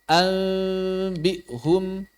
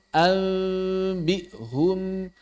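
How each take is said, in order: No difference in how they are said.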